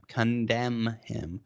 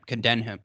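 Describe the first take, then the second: First: Careful self-correction. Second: Said in the usual way. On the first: Real, not acted. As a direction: CONDEMN drawn out slowly, syllable by syllable. Stumbles, then repeats it carefully.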